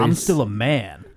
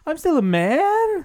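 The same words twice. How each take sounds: First: The voice falls at the end. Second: The voice rises at the end. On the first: The speaker calls it right. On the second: The speaker calls it wrong.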